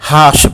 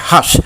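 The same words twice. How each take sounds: First: The vowel is not a short 'uh' sound. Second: The vowel is a short 'uh' sound. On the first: The speaker calls it wrong. "হাস বলা যাবে না" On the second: The speaker calls it right. "এটা হচ্ছে হাস"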